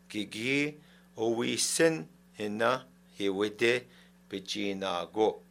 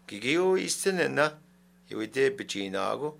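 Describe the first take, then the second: First: It is said slowly, without emphasis. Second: It is said faster, with emphasis.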